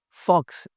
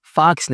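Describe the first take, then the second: First: फॉक्स with a rounded "o", foks; correct pronunciation. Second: फॉक्स with an open "aa", "faaks"; mispronunciation. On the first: (फॉक्स में गोल "ऑ") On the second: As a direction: open the vowel of फॉक्स to "fahks". (फॉक्स को "फ़ाक्स" बोलें) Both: Shown as a demonstration. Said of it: "फॉक्स नहीं कहना".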